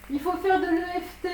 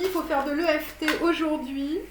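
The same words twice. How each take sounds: First: "Il faut faire de l'E F T" pitched higher, pressing each letter; insistent repeat. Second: Said in the usual way. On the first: Real, not acted. To her viewers, urging them to do EFT, insistent. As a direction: hammer home "E F T" as the must-do.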